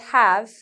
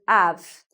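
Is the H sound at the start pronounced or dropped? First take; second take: pronounced; dropped. First: The word begins with an H sound. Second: The word begins without an H sound. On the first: "the word have" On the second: "becomes av"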